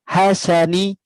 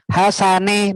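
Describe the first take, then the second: First: The final vowel is a clear 'ee'. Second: The final vowel is an open 'eh'. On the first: The speaker calls it right. "pengucapan i harus berbunyi i betul" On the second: The speaker calls it wrong. "bukan e"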